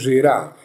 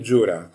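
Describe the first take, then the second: First: The name is pronounced the French way. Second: The name is not pronounced the French way. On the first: The speaker calls it right. "το λέω Ζηρά με τη γαλλική, ας πούμε, προφορά" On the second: The speaker calls it wrong. "και όχι"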